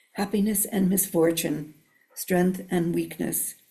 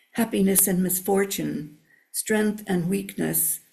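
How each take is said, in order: Both takes have the same delivery.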